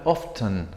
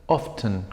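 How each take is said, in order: The two takes are said the same way.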